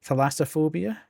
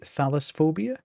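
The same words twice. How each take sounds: First: Thalassophobia with LASS stressed, questioning; second pronunciation attempt. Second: Thalassophobia with THAL stressed, short second syllable; unsure pronunciation. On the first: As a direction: say Thalassophobia as thuh-LASS-uh-phobia, rising. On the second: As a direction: say thalassophobia as THAL-uss-phobia, questioning. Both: Shown as a demonstration. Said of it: "is it".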